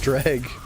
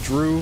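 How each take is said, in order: First: The name ends in a hard g consonant. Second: The name ends in an open oo vowel. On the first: The speaker calls it right. "It's pronounced drag" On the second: The speaker calls it wrong. "I've been saying Drew for years"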